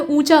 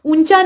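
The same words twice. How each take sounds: First: ऊंचा with nasal oo, no full n; light nasal vowel opening ऊंचा; nasalised vowel. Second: ऊंचा with a full n before ch; firm n inside ऊंचा; full n sound. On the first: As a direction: say ऊंचा as oo-chaa through the nose. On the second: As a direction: say ऊंचा as oon-chaa. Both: Shown as a demonstration. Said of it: "यहाँ चंद्रबिंदु लगेगा".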